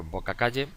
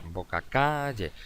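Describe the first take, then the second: First: Said in the usual way. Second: Boca calle slowed, CA in calle drawn out; stress on CA of calle. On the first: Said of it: "el golpe de voz cae". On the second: Shown as a demonstration. Teacher showing pupils where boca calle takes its stress, CA drawn out. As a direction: stretch the first syllable of calle in boca calle. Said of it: "el golpe de voz cae en la segunda sílaba K".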